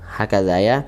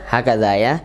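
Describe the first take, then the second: No difference in how they are said.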